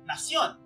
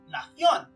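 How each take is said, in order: First: It is said with a Mexican Spanish pronunciation. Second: It is said with a Spain Spanish pronunciation. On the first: This is how it is said in Mexico. "Mexico's nación" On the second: This is how it is said in Spain. "nobody in the Philippines today would say nación, as they do in Spain"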